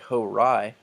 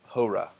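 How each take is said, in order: First: The word ends with an added 'ee' sound. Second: The word ends on a plain 'a' sound. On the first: The speaker calls it wrong. "So this would not be horai" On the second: The speaker calls it right. "but hora"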